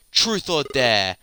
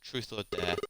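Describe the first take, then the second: First: Louder, slower, higher challenge; menacing demand. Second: Said in the usual way. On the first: Acted. Villain demands Lucia choose now, menacing and loud. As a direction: press her for an answer, drawn out and loud.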